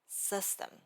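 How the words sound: Said with an American accent and sharp friction. The speaker calls it right. "lower your pitch and let the sound resonate deeply in your chest"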